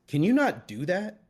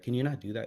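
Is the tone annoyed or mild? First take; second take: annoyed; mild. First: It is said annoyed, with raised voice. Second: It is said mildly, without annoyance.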